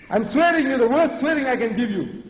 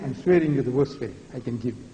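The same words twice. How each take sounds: First: Raised pitch, forceful repeat; high, insistent oratory; emphatic declaration. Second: Said in the usual way. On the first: Real, not acted. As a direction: hammer the insult home, voice pitched up.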